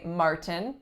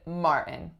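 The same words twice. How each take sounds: First: The T in the middle is fully pronounced. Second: The T in the middle is dropped. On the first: "I did not say Martin" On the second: "I said Martin"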